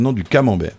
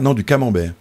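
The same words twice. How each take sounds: First: The first syllable of camembert is stressed. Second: Camembert is said with its usual final stress.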